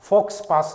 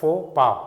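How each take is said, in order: First: The x and s sounds are pronounced. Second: The x and s sounds are silent. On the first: The speaker calls it wrong. "ফক্স পাছ নহয়" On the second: The speaker calls it right. "ইয়াৰ প্ৰনাউন্সিয়েশ্যনটো হয় ফো পা"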